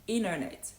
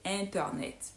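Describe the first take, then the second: First: The T after N is softened. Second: The T after N is pronounced fully. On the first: "He's more likely to say internet" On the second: "an American native speaker won't say internet"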